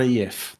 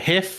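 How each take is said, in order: First: The word begins with a y sound. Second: The word begins with an h sound. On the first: The speaker calls it wrong. "not a yif" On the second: The speaker calls it right. "make sure you say it's a hiff"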